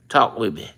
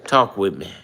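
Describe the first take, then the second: No difference in how they are said.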